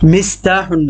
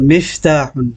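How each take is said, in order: First: The middle consonant is an s sound. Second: The middle consonant is an f sound. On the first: The speaker calls it wrong. "মিস্তাহুন না তো" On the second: The speaker calls it right. "এটা মিফতাহুন, ফা"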